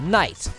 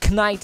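First: The initial k is silent. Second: The initial k is pronounced aloud. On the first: The speaker calls it right. "sondern Knight" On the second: The speaker calls it wrong. "Man spricht es nicht Knight aus"

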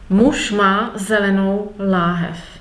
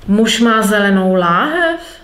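First: It is said as a plain statement. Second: It is said with question intonation.

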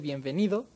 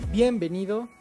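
First: The stress falls on the usual syllable. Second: The stress falls on an unexpected syllable. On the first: The speaker calls it right. "que debería ser Bienvenido" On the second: The speaker calls it wrong. "acentos cruzados"

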